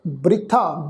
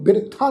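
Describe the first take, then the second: First: ਬ੍ਰਿਥਾ as bri-tha, b and r joined; correct pronunciation. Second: ਬਿਰਥਾ as bir-tha, vowel before the r; mispronunciation. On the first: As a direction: join b and r in ਬ੍ਰਿਥਾ. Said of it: "ਇਸ ਦਾ ਉਚਾਰਨ ਹੋਏਗਾ ਜੀ". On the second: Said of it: "ਬਿਰਥਾ ਨਹੀਂ ਉਚਾਰਨ ਕਰਨਾ". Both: Shown as a demonstration.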